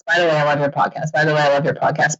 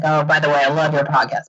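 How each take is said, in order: First: Mock how often she hears it; rapid repetition. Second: Said in the usual way. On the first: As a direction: rattle the same line off fast, over and over. Mocking the repeated emails.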